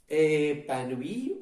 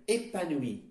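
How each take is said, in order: First: Épanoui with a held, open first vowel; open e starting épanoui. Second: Épanoui with a tight first vowel; closed é starting épanoui. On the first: Teacher offering the wrong option, open e in épanoui. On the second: Teacher offering the right option, closed é in épanoui. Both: Shown as a demonstration. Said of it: "il s'agit d'un E fermé".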